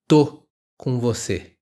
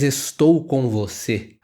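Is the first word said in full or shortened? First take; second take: shortened; full. First: The first word is shortened to 'tô'. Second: The first word is said in full as 'estou'. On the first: "essa contração" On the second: "não diz estou com você"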